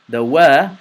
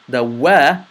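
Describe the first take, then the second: Both takes have the same delivery.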